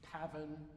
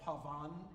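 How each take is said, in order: First: The stress is on the first syllable. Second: The stress is on the second syllable. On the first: This is the English way of saying it. "the English always put the accent on the first syllable of every word" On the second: This is the French way of saying it. "called pavane in French"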